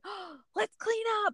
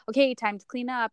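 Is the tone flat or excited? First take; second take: excited; flat. First: It is said in a lively, excited tone. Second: It is said in a flat, plain tone.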